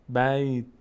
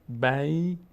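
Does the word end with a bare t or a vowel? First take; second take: bare t; bare t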